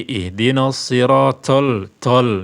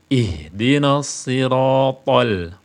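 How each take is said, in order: First: "siratal" with a hissing, breathy t on the ta. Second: "siratal" with a full, heavy t and no hiss, drawn out slowly; ta without hiss. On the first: Teacher shows the wrong hissed t in "siratal". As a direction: push air through the t of "siratal" like a hiss. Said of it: "Jangan dihames, jangan diberi desis". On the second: Teacher gives the right unhissed t in "siratal". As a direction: say "siratal" slowly, the t thick and clean. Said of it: "Harus dihilangkan hamesnya". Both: Shown as a demonstration.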